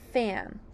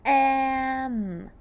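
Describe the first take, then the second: First: Said in the usual way. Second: "Fam" stretched, each sound held. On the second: Shown as a demonstration. Teacher sounds fam for learners, stretched sound by sound. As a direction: hold each sound of "Fam" long and loud. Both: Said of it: "Let's sound fam".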